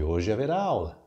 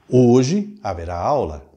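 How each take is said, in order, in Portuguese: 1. Segue sem pausa depois da primeira palavra. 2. Há uma pausa mais longa depois da primeira palavra. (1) "Sem vírgula" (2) "há uma pausa maior indicada pela vírgula e que sugere ênfase no adjunto adverbial de tempo"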